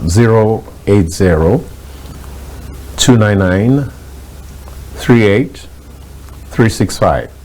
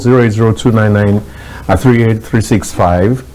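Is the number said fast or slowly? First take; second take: slowly; fast. First: The number is read out more slowly. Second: The number is read out fairly fast.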